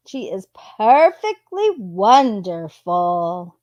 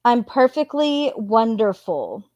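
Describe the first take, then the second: First: "perfectly" drawn out and stressed, slow; slow sarcastic stress. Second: Said in the usual way. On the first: Shown as a demonstration. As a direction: lean slowly into "perfectly" with irony.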